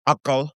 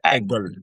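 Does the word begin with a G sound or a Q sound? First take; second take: Q sound; G sound. First: The word starts with a deep back Q sound. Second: The word starts with a hard G sound. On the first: This is the written standard form. "which is a cough" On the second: This is how Gulf dialects say it. "they would say egal"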